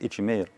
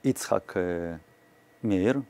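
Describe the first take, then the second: First: The name is said quickly, run into one word. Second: The name is said as two full separate words.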